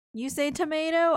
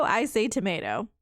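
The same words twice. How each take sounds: First: "tomato" as toh-MAY-toh; tomato with a long a. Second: "tomato" as toh-MAH-toh; tomato with a broad a. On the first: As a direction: say "tomato" with the American ay sound. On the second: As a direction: say "tomato" with the British ah sound. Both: Shown as a demonstration.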